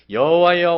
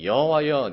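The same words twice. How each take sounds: First: 여호와여 cried out much louder and higher, falling at the end; angry outcry. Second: 여호와여 called out louder, falling at the end; indignant call. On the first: Preacher as Jonah crying 여호와여 at God in anger. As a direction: hurl 여호와여 at God in fury. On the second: Preacher voicing Jonah calling out 여호와여 with indignation. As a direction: call 여호와여 firmly, like a prophet with a grievance. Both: Acted. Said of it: "내가 요나가 된 것처럼 한번 읽어보겠습니다".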